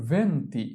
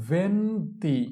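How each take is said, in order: First: Said in the usual way. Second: Slow, held "venti" for learners to copy; drawn-out model. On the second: Shown as a demonstration. Teacher models venti for learners, drawn out. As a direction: stretch "venti" into two long syllables.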